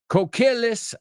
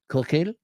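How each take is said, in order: First: It is said with an English accent. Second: It is said with a French accent. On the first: The speaker calls it wrong. "I'm sure I'm pronouncing that wrong" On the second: The speaker calls it right. "I'm going to try and say it like a French person"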